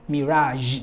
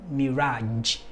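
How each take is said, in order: First: MIRAGE ending in a buzzing zh, "mi-RAHZH"; soft zh ending. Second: MIRAGE ending in a hard j, "mi-RAHDJ". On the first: Teacher showing the right ending, MIRAGE with zh. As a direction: let MIRAGE finish on a held zh. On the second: Teacher showing what not to say, MIRAGE with hard j. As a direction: close MIRAGE with a d before the zh. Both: Shown as a demonstration.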